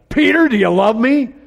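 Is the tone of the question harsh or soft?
harsh. The question is said in a harsh tone. The speaker is rebuking the listener impatiently. The speaker calls it wrong. "Do you even imagine that He said it harsh?"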